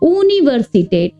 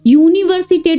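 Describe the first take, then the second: First: The word begins with an 'oo' sound. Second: The word begins with a 'you' sound. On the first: The speaker calls it right. "यू को ऊ की तरह प्रोनाउंस करना है" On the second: The speaker calls it wrong. "बहुत लोग क्या करते हैं, यूनिवर्सिटेट बोलते हैं, तो वो गलत होता है"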